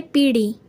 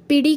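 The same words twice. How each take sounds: First: पीढ़ी with long ee, "pee-dhi"; correct form. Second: पीढ़ी with short first i, "pi-dhi"; wrong form. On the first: Teacher giving the correct word, पीढ़ी with long pee. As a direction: stretch the 'pee' in पीढ़ी. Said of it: "होता है". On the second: Teacher rejecting the wrong word, पीढ़ी with short pi. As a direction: clip the first vowel of पीढ़ी. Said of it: "कुछ नहीं होता". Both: Shown as a demonstration.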